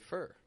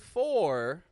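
First: The word has a short, reduced vowel. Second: The word has a full, clear vowel. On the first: The speaker calls it right. "We say fur" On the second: The speaker calls it wrong. "we don't say for all the time"

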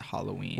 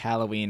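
First: The first vowel sounds like the o in 'hollow'. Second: The first vowel sounds like the a in 'hat'. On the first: "I just pronounced The A like an O" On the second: "I know that's probably correct"

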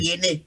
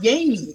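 First: It is said in Liberian English. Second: It is said the American way.

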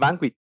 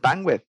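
First: The final th sound is dropped. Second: The final th sound is clearly pronounced. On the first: The speaker calls it wrong. "Escucho mucho a la banda decir bandwidth" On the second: The speaker calls it right. "es bandwidth. Ese TH"

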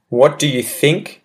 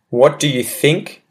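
First: Every word is said fully and distinctly. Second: The same.

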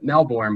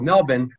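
First: Melbourne is said with the American pronunciation. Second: Melbourne is said with the Australian pronunciation. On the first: The speaker calls it wrong. "us being over here in the States, we've always called it Melbourne" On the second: The speaker calls it right. "That's how the pros say it over in Australia"

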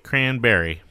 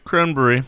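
First: It is said with an American accent. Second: It is said with a British accent. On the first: The speaker calls it wrong. "not like the Americans where they say cranberry" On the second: The speaker calls it right. "Say it like the British"

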